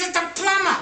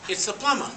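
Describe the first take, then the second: First: High, hammed-up exasperated yell; over-excited caller. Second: Said in the usual way. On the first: Plumber answering the parrot yet another time, over-excited yell. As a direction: yell it as if at your wits' end. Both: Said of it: "He goes so excited".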